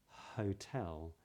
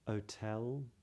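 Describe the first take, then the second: First: The word starts with a breathy H sound. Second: The word starts without any H sound. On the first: "you just need to add that at the beginning of those words" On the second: "people that don't do that would make those words sound more like"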